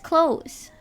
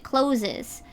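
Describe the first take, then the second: First: The word is said with one syllable. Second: The word is said with two syllables. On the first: The speaker calls it right. "How many times do I have to tell you it's close?" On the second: The speaker calls it wrong. "They always want to pronounce it closes"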